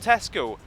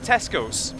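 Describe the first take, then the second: First: The name ends without an s sound. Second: The name ends with an added s sound. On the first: "there's no S, no S at all" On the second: "Scottish people, without fail, all call it Tesco's"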